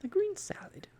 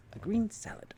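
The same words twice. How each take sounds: First: Very high, breathy scandalised repeat of "green salad"; the animal's appalled, mocking question; disapproving echo. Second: "green" hit hard, high and loud; emphatic insistence, higher and louder. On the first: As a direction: sniff at the "green salad" in disbelief. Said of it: "rolling its eyes disapprovingly". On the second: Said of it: "Arthur said emphatically". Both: A narrator's reading.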